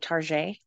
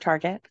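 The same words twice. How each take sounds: First: It is said with a fancy French-style pronunciation. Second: It is said with the plain everyday pronunciation. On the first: It makes the store sound upscale. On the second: It is the ordinary store name.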